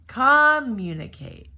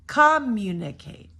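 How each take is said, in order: First: The stress is on the first syllable. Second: The same.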